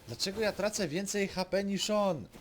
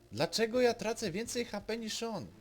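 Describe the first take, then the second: No difference in how they are said.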